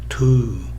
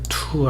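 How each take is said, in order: First: The vowel is stronger than the t sound. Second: A strong t with the vowel barely heard. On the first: "영어는 to 이런 식으로 to 웃소리가 t보다 더 강하다" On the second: "한국어 할 때 투수 투 할 때 한국의 이, 이 웃소리 이때 나타나는 이 웃소리는 거의 들리지 않습니다"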